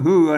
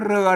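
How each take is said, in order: First: The word begins with an h sound. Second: The word begins with an r sound. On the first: The speaker calls it right. "อ่านว่าเหือนะ" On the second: The speaker calls it wrong. "ไม่ใช่ อ่านว่าเรือนะครับ"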